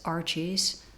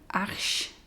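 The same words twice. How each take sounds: First: It is pronounced the English way. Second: It is pronounced the French way.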